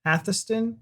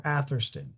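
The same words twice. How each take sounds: First: "Atherston" as Athuh-stun, no R; R dropped. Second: "Atherston" with a sharp R; R pronounced. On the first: Echoing partner's two pronunciations, R dropped. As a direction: leave the R out of "Atherston". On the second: Echoing partner's two pronunciations, R sounded. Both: Shown as a demonstration. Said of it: "if you pronounce the R".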